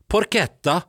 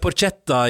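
First: The ch is said as a hard k. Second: The ch is said as a soft sound. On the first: The speaker calls it right. "men det er vist porchetta" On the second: The speaker calls it wrong. "Jeg sa jo porchetta i går"

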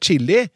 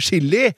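First: It begins with a 'ch' sound. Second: It begins with an 'sh' sound. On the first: The speaker calls it right. "I stedet for å si ... å spise «chili»" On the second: The speaker calls it wrong. "med samme SJ-uttalelse som i «sjokolade»"

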